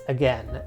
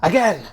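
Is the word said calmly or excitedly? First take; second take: calmly; excitedly. First: The word is said plainly, without extra energy. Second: The word is said loudly, with exclamatory energy.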